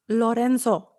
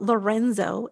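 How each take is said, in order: First: The name is said with a Spanish pronunciation. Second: The name is said with an English pronunciation. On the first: The name is kept as it really is. The speaker calls it right. "it's Lorenzo" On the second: The name is changed to suit other people. The speaker calls it wrong. "your name is not Lorenzo"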